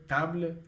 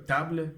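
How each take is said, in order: The two takes are said the same way.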